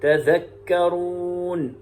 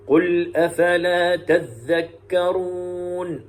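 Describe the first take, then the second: First: تذكرون chanted with single dhal, tadhakkarun; slow tajweed chant, تذكرون as tadhakkarun; Hafs reading. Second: تذكرون chanted with doubled dhal, tadhdhakkarun; slow tajweed chant, تذكرون as tadhdhakkarun; Shu'ba reading. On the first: Teacher contrasting Hafs's reading, chanted تذكرون with single dhal. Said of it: "ويقرأ حفص". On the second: Teacher showing Shu'ba's reading, chanted تذكرون with doubled dhal. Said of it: "كلمة تذكرون بالتشديد". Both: Shown as a demonstration.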